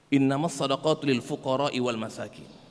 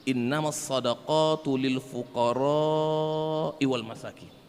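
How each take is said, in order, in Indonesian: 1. Vokal pada fuqara dibaca pendek. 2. Vokal pada fuqara dibaca panjang.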